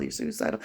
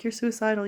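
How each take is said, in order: First: Whispered you're suicidal, with you're stressed; mock whisper. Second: Said in the usual way. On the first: Whispering what everyone keeps telling her. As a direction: repeat it in a breathy whisper. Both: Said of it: "Everybody's like".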